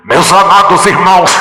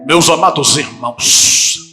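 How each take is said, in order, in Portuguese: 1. A voz berra muito alto, machucando os ouvidos. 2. Uma voz fina forçada para ficar artificialmente grave. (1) "colocam a mão aqui ... Aí acaba com os tímpanos" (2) "ela quer ter uma voz de, de barítono ... Ela não consegue segurar ... É artificial isso"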